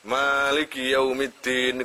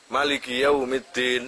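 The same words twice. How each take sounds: First: The first vowel of maliki is long. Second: The first vowel of maliki is short. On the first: "Bisa mimnya ada alifnya" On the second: "bisa mimnya enggak ada, enggak ada alif"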